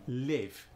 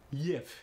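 First: "Live" with only a light Russian glide; light Russian accent on "Live"; lighter Russian accent. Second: "Live" with a y-glide before the vowel, Russian; thick Russian "lyev" for "Live"; thicker Russian accent. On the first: the speaker showing accent thickness, lighter Russian accent. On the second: the speaker showing accent thickness, thicker Russian accent. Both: Shown as a demonstration. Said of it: "It depends on the thickness".

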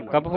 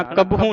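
First: ਕਬਹੂ with a long "oo" written by dulainkar; dulainkar final vowel. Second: ਕਬਹੂ shown with the mistaken last vowel; wrong final vowel. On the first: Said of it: "ਕਬਹੂ ਹੁੰਦਾ ਦਲੈਂਕੜਾਂ ਦੇ ਨਾਲ". (ਕਬਹੂ ਦੇ ਅੰਤ ਵਿੱਚ ਦੁਲੈਂਕੜ ਦੀ ਆਵਾਜ਼) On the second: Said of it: "ਕਬਹੂ ਨਹੀਂ ਪੜਨਾ". (ਕਬਹੂ ਦੇ ਅੰਤਲੇ ਸੁਰ ਦਾ ਗਲਤ ਪਾਠ) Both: Shown as a demonstration.

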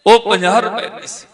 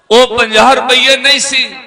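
First: Said in the usual way. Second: ਨਹੀਂ punched higher and louder; stress on ਨਹੀਂ. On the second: Shown as a demonstration. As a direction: drive home ਨਹੀਂ with a raised voice.

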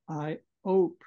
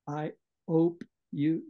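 First: "hope" said as "ope" without the H; dropped H. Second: "hope" said as "ope", no H sound; dropped H. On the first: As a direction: say "I hope" as "I 'ope". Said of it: "So he's dropping his H's". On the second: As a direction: drop the H in "hope". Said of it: "notice that Pip drops his H's". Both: Shown as a demonstration.

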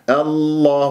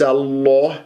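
First: "الله" with heavy lam and unrounded lips. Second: "الله" with lips rounded into an o; wrongly rounded lips. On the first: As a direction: keep lips relaxed through the long vowel of "الله". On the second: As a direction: round the long vowel of "الله" towards aw. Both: Shown as a demonstration. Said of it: "انتبهوا لا تكوير للشفاه".

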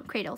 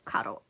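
First: Said in the usual way. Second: A botched first try at "cradle"; mispronounced cradle. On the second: Real, not acted. Unboxer fumbling the charger's name, mispronounced "cradle". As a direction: stumble over "cradle", getting it wrong. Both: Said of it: "cradle, sorry".

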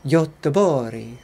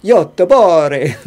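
First: "Göteborg" slowly as yuh-teh-BOR-ee; Swedish pronunciation attempt. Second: Loud, drawn-out mock Italian accent; playful, exaggerated Italian accent. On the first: Shown as a demonstration. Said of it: "How do you say it?". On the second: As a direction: belt it slowly like a hammed-up Italian. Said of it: "Like an Italian?".

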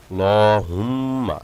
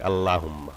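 First: লহুম্মা with a short lam and ghunna on the first mim; slow, nasal hum on the mim in লহুম্মা; right reading. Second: আল্লাহুম্মা with a full আ after লাম, the wrong way; the mistaken long la in আল্লাহুম্মা; wrong reading. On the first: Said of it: "প্রথম মিমকে গুণনা করতে হবে". (সহি উচ্চারণ, মিমে গুণনা) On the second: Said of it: "আল্লাহুম্মা হবে না". (ভুল উচ্চারণ, লা টেনে) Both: Shown as a demonstration.

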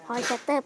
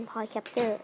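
First: "Capture" said with a t in the last syllable, like cap-ter; old pronunciation. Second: "Capture" said with a ch sound in the last syllable; corrected pronunciation. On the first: Vlogger quotes a comment on the name, old cap-ter pronunciation. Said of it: "เปลี่ยนจาก Point Capture เป็น". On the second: Vlogger gives the commenter's correction, cap-cher pronunciation. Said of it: "ที่เปลี่ยนเป็น Point Capture". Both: Shown as a demonstration.

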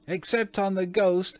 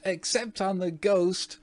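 First: Put-on very high shrieking child voice; shrieked. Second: Very high shrieking repeat; shrieked. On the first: Twins capering about, shrieking gleefully. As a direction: shriek it gleefully, much higher. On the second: Twins capering, shrieking the same words. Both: A narrator's reading. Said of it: "shrieked the twins".

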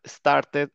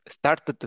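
First: "started" with a clear -ted syllable; ED pronounced fully. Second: "started" with the final Ts piled up; crammed T ending. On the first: Teacher giving the example to follow, "started" with full ED. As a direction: sound out the ED in "started". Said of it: "pronuncien la E D como tal". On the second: Teacher showing what doesn't sound right, "started" with crammed Ts. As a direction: cram an extra T onto "started". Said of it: "como que no suena bien". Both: Shown as a demonstration.

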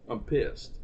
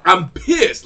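First: Quiet pissed. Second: Loud, punchy anger; annoyed fan venting; pissed off. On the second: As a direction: spit out how mad you are. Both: Real, not acted.

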